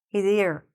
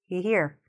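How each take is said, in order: First: A clear S or Z sound follows he. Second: No S or Z sound follows he. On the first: The speaker calls it right. "We do need to hear that extra S or Z sound" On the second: The speaker calls it wrong. "if you don't say the S, it sounds like he here"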